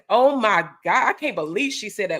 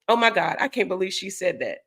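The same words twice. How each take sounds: First: It is said in a dramatic, scandalized tone. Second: It is said in a light, casual tone. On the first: It suggests the person was talking cold hard smack. "they'll change the tone" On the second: It is a simple, harmless remark. "you could say simple stuff"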